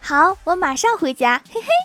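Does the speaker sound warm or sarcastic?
warm. It sounds warm and cheerful, with a friendly chuckle.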